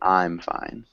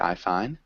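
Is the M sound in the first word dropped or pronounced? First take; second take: pronounced; dropped. First: The M sound after I is clearly pronounced. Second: The M sound after I is dropped. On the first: The speaker calls it right. "We want to say I'm fine" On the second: The speaker calls it wrong. "It does sound strange if you just say I fine"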